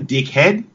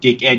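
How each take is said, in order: First: The word is said as two full syllables. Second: The word is clipped, with the second part reduced. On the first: The speaker is calling themselves this. "you definitely pronounce it two syllables" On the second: The insult is aimed at someone else. "if you're calling somebody else dickhead, yet you don't pronounce the D-E"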